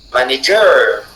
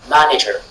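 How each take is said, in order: First: The stress is on the third syllable. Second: The stress is on the first syllable. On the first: "Si la syllabe ger de la fin était accentuée" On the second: "la syllabe ma du départ soit accentuée"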